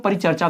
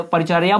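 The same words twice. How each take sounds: First: परिचर्चा said with a second च, pa-ri-char-cha; परिचर्चा, आखिर में "चा"; paricharcha variant. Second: परिचर्या said with a clear य sound, pa-ri-char-ya; पूरा परिचर्या, आखिर में "या"; parichrya pronunciation. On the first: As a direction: say परिचर्चा ending in -cha, like some people say it. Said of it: "कुछ लोग परिचर्चा भी बोलते हैं". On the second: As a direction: say परिचर्या ending in -ya, not -cha. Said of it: "परिचर्या भी बोलते हैं इसको". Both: Shown as a demonstration.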